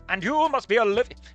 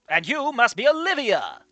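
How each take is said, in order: First: It is said without an exaggerated American accent. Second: It is said in an exaggerated American accent.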